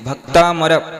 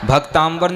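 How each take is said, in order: First: The middle is said with a plain 'm' sound. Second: The middle is said with an 'mb' sound. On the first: The speaker calls it right. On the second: The speaker calls it wrong.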